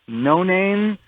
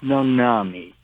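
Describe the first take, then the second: First: It is said as two words, no and name. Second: It is said as one word, no-nah-mee. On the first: The speaker calls it wrong. "most people see it and they say" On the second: The speaker calls it right. "but it's pronounced Nonami"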